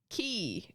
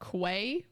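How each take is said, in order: First: The word sounds exactly like 'key'. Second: The word does not sound like 'key'. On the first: The speaker calls it right. "It's pronounced key" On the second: The speaker calls it wrong. "Quay is not pronounced, is not pronounced uh, Quay"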